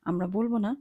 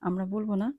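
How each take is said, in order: No difference in how they are said.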